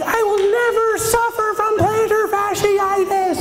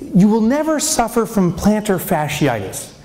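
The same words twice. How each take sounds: First: Much higher, slow, a triumphant oath; ecstatic declaration. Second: Said in the usual way. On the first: Retold or imitated. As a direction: proclaim it like salvation. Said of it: "I'm like". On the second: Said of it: "The next line says".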